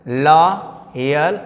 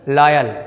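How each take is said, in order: First: लॉयल very slowly as "laaa... yal"; drawn-out two-part लॉयल, open "laa"; syllable by syllable. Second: लॉयल in one go as "LAA-yal"; joined-up word. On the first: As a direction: stretch the first vowel of लॉयल, pause, then "yal". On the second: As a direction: say लॉयल whole, open "laa", falling end. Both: Shown as a demonstration. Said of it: "क्या हो जाएगा?".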